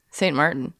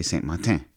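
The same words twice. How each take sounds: First: Saint Martin as English MAR-tin, R and N sounded; local plain pronunciation. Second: Saint Martin ending in a French nasal "tan"; mock the French-style Saint Martin, dropping the R; affected French pronunciation. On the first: Shown as a demonstration. Wife showing what people there say, plain English Saint Martin. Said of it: "The people there say". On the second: Husband mocking people who think they're right, French-style Saint Martin. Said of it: "People think they're saying it right".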